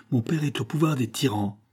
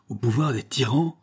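First: "au pouvoir des tyrans" stated, falling at the end; higher voice closing firmly downward on "tyrans"; falling statement. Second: "Au pouvoir des tyrans" echoed, rising at the end; higher voice lifting on "tyrans" in question; questioning exclamation. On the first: Boy telling of his captive father, falling statement. Boy's statement, echoed as question. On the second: Farmer echoing the boy's news, questioning exclamation. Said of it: "s'écria Biot". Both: A narrator's reading.

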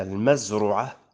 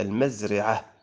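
First: المزرعة said with "u" after the ra, mazru'ah; damma on the ra. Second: المزرعة said with "i" after the ra, mazri'ah; kasra on the ra. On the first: Teacher quoting one reported form, damma on the ra of المزرعة. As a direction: sound المزرعة as maz-RU-'ah. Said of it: "وبالضم". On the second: Teacher quoting a second reported form, kasra on the ra of المزرعة. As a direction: sound المزرعة as maz-RI-'ah. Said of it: "وبالكسر". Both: Shown as a demonstration.

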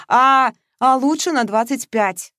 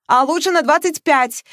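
First: Parroting her friend, drawn out and mocking; mocking echo. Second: Rushing on, high and loud, not letting her speak; eager insistence. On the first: Передразнивая подругу, протяжно. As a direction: Masha mimics Veronika's words back at her, mocking. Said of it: "гнула своё Маша". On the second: Acted. Настойчиво и взахлёб. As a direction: Veronika pushes her point on her friend, eagerly. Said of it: "не давала вставить слово подруга".

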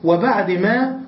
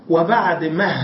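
First: Said in the usual way. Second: مه said ending in a breathy h instead of ما; pausal ha. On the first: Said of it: "والما الأخيرة هي ما أصلًا". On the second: Shown as a demonstration. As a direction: close مه on an h sound. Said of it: "فصارت وبعد مه".

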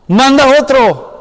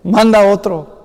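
First: "Manda otro" higher, louder and slower, begging; pleading Moses. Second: Said in the usual way. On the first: Acted. Moses begging God to send someone else, higher and louder. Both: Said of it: "él realmente está diciendo".

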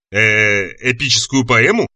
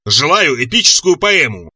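First: Hesitant, timid question rising at the end; trembling voice. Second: Slow, roared monster demand; roaring monster. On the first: Chalmers checks the monster's demand, trembling voice. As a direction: echo it back nervously. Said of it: "дрожащим голосом переспросил Чалмерс". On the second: Monster demands a poem from captives, slow roar. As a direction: draw the demand out imperiously. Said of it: "взревело чудовище". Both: A narrator's reading.

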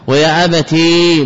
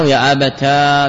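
First: ويا أبتي with a long, held "ee"; sounded final ya. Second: ويا أبتا with a long, held "aa"; ya turned alif. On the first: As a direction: slowly stretch the ي ending ويا أبتي. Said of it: "بإثبات الياء". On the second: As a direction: slowly stretch the alif ending ويا أبتا. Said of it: "بقلب الياء ألفا". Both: Shown as a demonstration.

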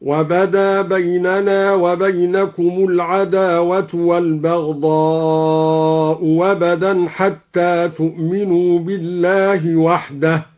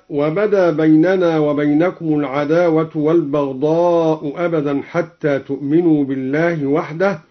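First: والبغضاء أبدا with the second hamza turned into a waw; chanted, hamza replaced by a waw. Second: Said in the usual way. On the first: Shown as a demonstration. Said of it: "أبدل الهمزة الثانية واوا". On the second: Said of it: "هكذا".

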